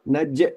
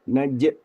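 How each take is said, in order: First: The bounce is cut off with a catch. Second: The same.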